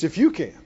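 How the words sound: The stress falls on the word you. The responsibility lies with the person asking. The speaker calls it right. "if you yourself can"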